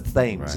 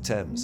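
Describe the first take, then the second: First: The word is said the American way. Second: The word is said the British way.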